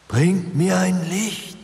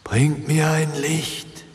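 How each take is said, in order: First: Higher still, slow, eerie call rising at the end; rising ghostly wail. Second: Slow, high, eerie ghostly wail; whimpering ghost. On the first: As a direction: let the ghost's plea climb. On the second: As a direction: moan it like a lost spirit. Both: A narrator's reading. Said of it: "wimmerte die Stimme".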